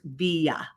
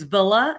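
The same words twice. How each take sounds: First: The double L is said as a Y sound. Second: The double L is said as an L sound.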